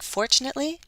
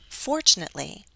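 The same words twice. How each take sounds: First: The pitch simply rises through the word. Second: The pitch falls and then rises on the word. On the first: "Some people like to go up" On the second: "I like the fall rise pattern"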